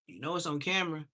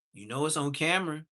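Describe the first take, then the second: No difference in how they are said.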